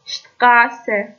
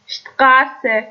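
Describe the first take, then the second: First: شتقاسه said slowly, sht held firm; German st as sht. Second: شتقاسه said slowly, opening with sht; German st as sht. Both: Shown as a demonstration.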